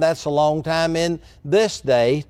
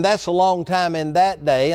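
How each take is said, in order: First: THIS set apart by a brief pause; pause, then lean on THIS day; stress on THIS. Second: THAT leaned on in "that day"; stress on THAT. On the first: Preacher turning the contrast to today, stress on THIS. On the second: Preacher contrasting Bible times with today, stress on THAT. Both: Real, not acted.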